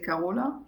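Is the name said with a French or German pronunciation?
German. The name is pronounced in a German way. "in Germany we say Carola"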